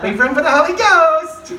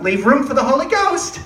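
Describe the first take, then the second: First: Higher and louder, scolding; mock teacher's aide. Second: Higher, louder prim warning; a mimicked chaperone scolding; mock teacher's aide. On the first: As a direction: wag the finger harder on the repeat. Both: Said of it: "she's like".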